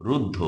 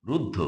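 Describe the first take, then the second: No difference in how they are said.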